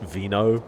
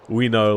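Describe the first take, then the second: First: The word begins with a V sound. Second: The word begins with a W sound. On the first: This is how people reading Latin today say it. The speaker calls it wrong. "they say like vino" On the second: This is how it was said back then. The speaker calls it right. "actually it was a W back then"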